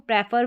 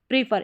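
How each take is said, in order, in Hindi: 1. पहला स्वर छोटी 'e' ध्वनि है। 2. पहला स्वर लंबी 'ee' ध्वनि है। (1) "इसको प्रेफर भी पढ़ देते हैं" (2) "पी आर ई को प्रीफर"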